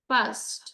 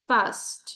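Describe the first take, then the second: Both takes have the same delivery.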